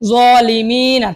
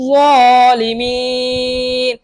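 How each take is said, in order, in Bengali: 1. শব্দের শেষ স্বরধ্বনিটি পূর্ণভাবে থাকে। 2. শেষ স্বরধ্বনিটি বাদ পড়ে এবং স্বরটি টানা হয়।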